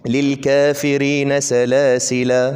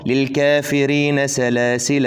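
First: The word salasil ends with a long 'a' vowel. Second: The word salasil ends without a long vowel. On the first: The reciter stops after this word. "عند الوقف" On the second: The reciter continues reading without stopping. "ده عند الايه الوصل"

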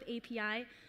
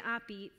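First: It is said as three separate letters. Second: It is said as one word, Spanish style. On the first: "we're going to go with API" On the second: "alternate pronunciations to API"

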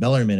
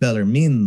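First: The name is said with an English pronunciation. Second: The name is said with an Italian pronunciation. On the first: This is the usual form used in English. "we call him Bellarmine ... his name gets anglicized" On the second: This is the original form of the name. "and not Bellarmine"

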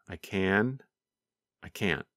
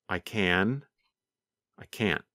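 No difference in how they are said.

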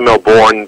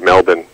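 First: The last syllable sounds like a full 'born'. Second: The last syllable is short and weak. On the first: This is how outsiders say it. The speaker calls it wrong. "people say Melbourne" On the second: This is how locals say it. The speaker calls it right. "we say Melbourne"

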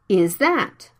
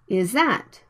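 First: The th sound of that is fully pronounced. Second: The th sound of that is dropped.

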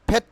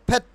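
The two takes are said the same way.

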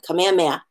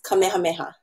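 First: The H sound after the vowel is dropped. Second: The H sound after the vowel is clearly heard. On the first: The speaker calls it wrong. "We hear it all the time" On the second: The speaker calls it right. "We have to get that H sound in there"

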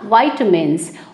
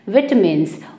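First: It is said in the American way. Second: It is said in the British way.

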